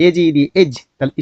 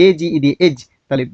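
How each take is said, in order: Both takes have the same delivery.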